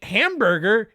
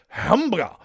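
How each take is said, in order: First: It is said in a plain English accent. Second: It is said in a Japanese accent.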